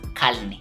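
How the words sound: The word is said with an L sound. "they say calne"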